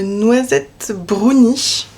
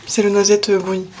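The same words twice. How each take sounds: First: Slow, savouring the name; drawn out. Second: Said in the usual way. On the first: Real, not acted. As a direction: stretch out the tea name.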